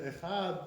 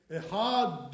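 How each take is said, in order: First: "Echad" ending in a gentle th as in "the"; "Echad" with no burst on the final d; softer Dalet. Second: "Echad" with a loud exploded D, echad-DUH; too-hard Dalet. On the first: Shown as a demonstration. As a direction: let the last sound of "Echad" fade as a soft dh. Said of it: "make it a little bit softer". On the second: Retold or imitated. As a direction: slam the final d of "Echad". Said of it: "the Dalet too hard".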